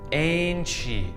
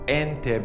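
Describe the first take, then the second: First: The consonant before the final vowel is ch. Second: The consonant before the final vowel is t. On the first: The speaker calls it right. "in Brazilian Portuguese, this is actually pronounced as enche" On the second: The speaker calls it wrong. "most people learn this as ente because they learn a bit of Spanish"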